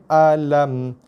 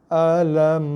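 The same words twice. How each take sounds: Both takes have the same delivery.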